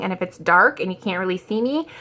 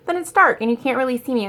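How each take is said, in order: First: Said in the usual way. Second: Quicker, higher, "dark" stressed; so what. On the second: Shown as a demonstration. Telling viewers dark videos are fine, shrugging. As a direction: brush it off, who cares.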